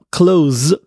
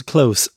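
First: "clothes" as clothe, long o and buzzing end; voiced z ending. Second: "clothes" as cloth, ending unvoiced; voiceless ending. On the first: Teacher showing the verb, "clothes" with held z-like ending. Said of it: "clothes就是帮谁穿上衣服". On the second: Teacher contrasting the noun for fabric, "clothes" with voiceless ending. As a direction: finish "clothes" on a hissed voiceless consonant. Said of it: "那如果是clothes". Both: Shown as a demonstration.

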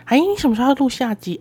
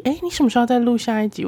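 First: Eager coworker pestering her; nagging senior. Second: Faster, pestering repeat; repeated nagging. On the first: 学姐一直追问什么时候录下一集，催促地问. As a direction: ask it like a coworker who keeps nagging. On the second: 学姐再次催问下一集，更快更急地问. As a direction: rush the same question again, nagging. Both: Retold or imitated. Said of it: "而且她还一直说".

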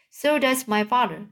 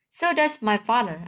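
First: Higher, mocking whine; whining voice. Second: Said in the usual way. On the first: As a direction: mimic him in a whiny voice. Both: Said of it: "mimicked me in the whining voice".

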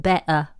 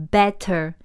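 First: British "better" with a glottal stop for the TT; dropped T. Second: Said in the usual way. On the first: Shown as a demonstration. Teacher showing how some Brits say it, T dropped in "better". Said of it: "他们会念better". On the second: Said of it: "都不会念T".

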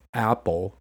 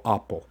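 First: APPLE slowly, with the front vowel of cat; American short A. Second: APPLE starting with a back "ah"; British broad A. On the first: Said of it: "rather saying". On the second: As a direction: say APPLE with "ah" for the first vowel. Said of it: "they go apple". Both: Shown as a demonstration.

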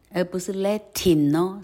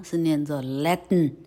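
First: Latin said "la-tin" with a clear i and rising end; wrong full vowel. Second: Latin said "lat-n", nasal release and no vowel; syllabic n. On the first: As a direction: overpronounce Latin as two full syllables. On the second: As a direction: swallow the i in Latin. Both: Shown as a demonstration.

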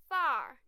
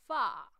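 First: American accent. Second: British accent. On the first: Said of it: "很远的far". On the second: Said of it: "英式发音". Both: Shown as a demonstration.

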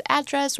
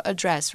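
First: "address" with the stress on AD; stress on first syllable. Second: "address" with the stress on DRESS; stress on second syllable. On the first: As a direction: say "address" as AD-dress. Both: Shown as a demonstration. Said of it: "它有两个发音".

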